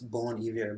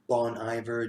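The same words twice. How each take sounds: First: The name is pronounced with a French sound. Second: The name is pronounced with an English sound. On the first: "But I took French, it's Bon Iver" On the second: "some people pronounce him as Bon Iver"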